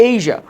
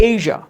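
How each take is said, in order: No difference in how they are said.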